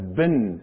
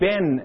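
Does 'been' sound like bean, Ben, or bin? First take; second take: bin; Ben. First: The vowel is short, like in 'bin'. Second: The vowel is open, like in 'Ben'. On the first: This is how it is said in the United States. "In the United States, that's been, as in B-I-N" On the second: This is how it is said in Michigan. "in Michigan, they pronounce it Ben, as in the name"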